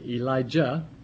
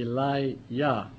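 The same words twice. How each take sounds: First: The middle syllable starts with a 'j' sound. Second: The middle syllable starts with a 'y' sound. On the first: The speaker calls it wrong. "most people say Elijah, E-L-I-J-A-H. But the ja is not proper pronunciation" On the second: The speaker calls it right. "It should be Elijah. It means, my God is Yah"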